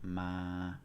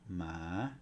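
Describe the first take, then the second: First: The pitch stays level in the middle. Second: The pitch climbs from low to high. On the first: "no tone, which is ma. It's monotone" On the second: "Here we have rising tone"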